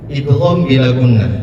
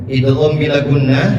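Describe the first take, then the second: Both takes have the same delivery.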